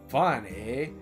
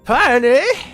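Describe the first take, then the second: First: It is read in the reader's ordinary voice. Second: It is said in a put-on old woman's voice.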